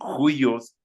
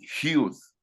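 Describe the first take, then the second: First: The upsilon vowel is sounded in the word. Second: The upsilon vowel is left out of the word. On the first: "algunos dicen juyos" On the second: "otros dicen hius, porque no pronuncian la upsilon"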